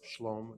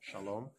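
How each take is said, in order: First: The word has one syllable, with no vowel after sh. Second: The word has two syllables, with a vowel after sh. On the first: The speaker calls it right. "the correct pronunciation there is Shlom" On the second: The speaker calls it wrong. "not Shalom"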